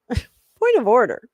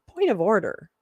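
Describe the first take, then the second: First: Pompous point of order, laughing; mock formal laughing. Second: Said in the usual way. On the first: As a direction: play the parliamentarian with a laugh. Repeats the phrase mockingly, laughing.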